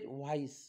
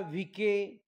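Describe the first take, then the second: First: It is said with an 'eye' vowel and final 's'. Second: It is said with an 'ee' vowel and a 'k'. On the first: The speaker calls it right. "आय-सी-ई म्हणजे आईस म्हणजे व्हाईस" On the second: The speaker calls it wrong. "ते बरेचसे विद्यार्थी याला व्हीके किंवा विसे असं काहीतरी वाचतील"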